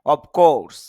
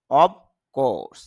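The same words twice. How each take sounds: First: অফ course with an f sound, louder; the usual অফ course, f not b; অফ course said the common way with f; everyday pronunciation. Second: অব course with a clear b, ob course; অব course, b sound in place of f; IPA reading. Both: Shown as a demonstration. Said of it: "যদিও আমরা অফ course বলি".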